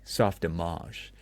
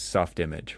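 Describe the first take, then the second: First: The name is said in a pretentious, affected way. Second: The name is said plainly, as read. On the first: "very pretentiously" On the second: "you think it's soft image"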